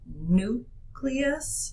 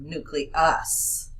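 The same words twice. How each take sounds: First: The stress falls on the usual syllable. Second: The stress is shifted to another syllable. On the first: The speaker calls it right. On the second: The speaker calls it wrong.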